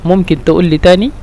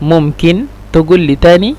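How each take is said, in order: First: The verb's consonant is pronounced as a glottal stop. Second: The verb's consonant is pronounced as a g sound. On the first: "হামজা হিসাবে উচ্চারণ করলে" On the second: "এই কফকে যদি আমরা গইন হিসাবে উচ্চারণ করে থাকি"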